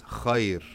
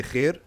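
First: "khayr" with heavy kh and open "ai" glide; technical khayr. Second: "khair" with one thin "eh" vowel; colloquial khair. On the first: Teacher gives the technical reading, full diphthong. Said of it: "the technical reading of it". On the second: Teacher allows the everyday spoken form, flattened vowel. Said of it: "You could talk how you want". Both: Shown as a demonstration.

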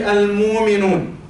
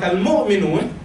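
First: "al-mu'minun" with a long smooth muu, no catch; dropped hamza. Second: "al-mu'minun" with a catch after mu; glottal stop pronunciation. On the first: Prophet teaching tribes their dialect, "al-mu'minun" with long smooth muu. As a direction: slowly glide through "al-mu'minun" without the glottal stop. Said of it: "would teach them, say". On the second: Teacher showing a dialect difference, "al-mu'minun" with glottal catch. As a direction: say "al-mu'minun" with the hamza sounded. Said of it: "couldn't say "a" in the middle of the word". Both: Shown as a demonstration.

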